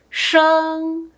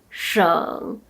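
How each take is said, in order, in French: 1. La hauteur reste haute et stable. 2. La hauteur descend bas, puis remonte.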